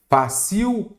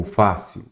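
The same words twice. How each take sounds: First: FÁCIL said as "fa-CIU", end high and drawn out; stress shifted to last syllable. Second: Said in the usual way. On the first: Shown as a demonstration. Teacher shows the word without its accent, end-stressed. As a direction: read "fácil" with CIL stressed, pitched high. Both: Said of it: "cadê o fácil? Faltou o acento".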